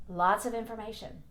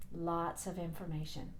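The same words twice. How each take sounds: First: Said in the usual way. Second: Softer, lower aside; quiet. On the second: Real, not acted. Repeated softer.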